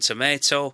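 It is said with an American pronunciation. "the American pronunciation"

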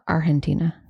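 It is said in an Argentine accent.

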